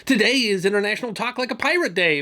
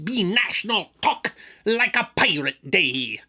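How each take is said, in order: First: Said in the usual way. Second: Slow, drawn-out pirate announcement. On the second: Acted. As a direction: proclaim it like a pirate captain. Pirate voice vs plain later.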